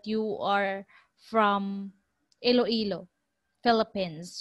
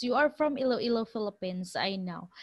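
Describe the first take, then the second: First: Slow, spaced-out words with pauses between; deliberate Canadian working it out word by word; slow Canadian quote. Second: Fast, confident run of words trailing off softer; quick knowing quote. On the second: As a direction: rattle it off like you're sure. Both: Retold or imitated. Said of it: "the Canadian said".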